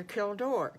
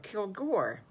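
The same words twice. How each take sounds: First: "Kildor" with a D sound in place of G; slip of the tongue. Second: "Kilgore" with a hard G sound; corrected name. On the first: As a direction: say "Kildor", D where the G belongs. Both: Real, not acted. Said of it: "can't remember the D's and the G's".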